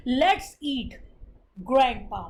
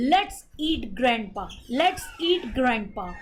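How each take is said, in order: First: "Let's eat" then a pause before "grandpa", which drops lower; comma pause after eat. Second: "Let's eat grandpa" run together, no pause after "eat", slow. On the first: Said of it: "ईट के बाद comma लगा है". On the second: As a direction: say "Let's eat grandpa" as one unbroken phrase, slowly. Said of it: "अगर हम ये बोलते हैं". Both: Shown as a demonstration.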